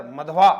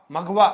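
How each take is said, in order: First: Misreading मधवा with dh before correcting it; slip of the tongue. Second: मघवा said with a clear gh, firmly fixing the slip; corrected pronunciation. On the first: Teacher misreads the word to students, a quick slip. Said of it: "मघवा, sorry". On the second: Teacher corrects his misread word for students, firm and clear. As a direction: fix it: मघवा with gh, not dh. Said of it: "sorry". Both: Real, not acted.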